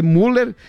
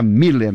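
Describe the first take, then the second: First: "Müller" with a plain u, MOO-ler; stressed oo sound opening "Müller"; pronounced as spelt. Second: "Miller" with an ee, MEE-ler; stressed ee sound opening "Miller"; corrected pronunciation. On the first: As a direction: read "Müller" letter for letter, MU-ler. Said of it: "se escreve Müller". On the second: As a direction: say "Miller" with i in place of ü. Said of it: "se pronuncia Miller". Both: Shown as a demonstration.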